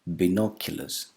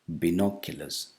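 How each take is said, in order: Both takes have the same delivery.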